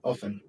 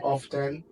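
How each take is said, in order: First: The T sound in the middle is silent. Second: The T sound in the middle is pronounced. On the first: "the best pronunciation is often" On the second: "you can hear people say often"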